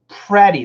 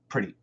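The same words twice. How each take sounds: First: The first vowel is a short e, as in bed. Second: It is said fast with a weak schwa vowel. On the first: "We don't say pretty, pretty. That would be a short E" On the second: "if we say it really fast, it might even sound like a schwa"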